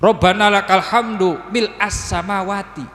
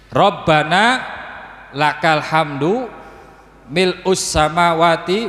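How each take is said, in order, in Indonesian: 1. Kata setelah hamdu diucapkan dengan vokal a. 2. Kata setelah hamdu diucapkan dengan vokal u. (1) "Kalau dibaca mil'a jadi hal mansub" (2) "Lamun dibaca mil'u iku dadi sifate hamdu"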